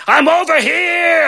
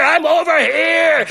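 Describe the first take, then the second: First: Slow, high call pretending to be Beast; faked call for help. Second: Slow, high call pretending to be Beast, drawn out; faked call for help. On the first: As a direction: fake a distant cry to lure her in. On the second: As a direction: stretch the cry so she can find it. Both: Fairy godmother faking Beast's call to guide Belle, slow and high. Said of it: "So I have to fake it".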